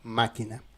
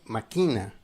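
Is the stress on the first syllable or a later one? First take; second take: first; later. First: The stress is on the first syllable. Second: The stress is not on the first syllable. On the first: A machine. "si on parle de la machine, on dit máquina" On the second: Someone plots or plans something. "si tu n'as pas la- l'accent, la, tilde, la prononciation c'est máquina"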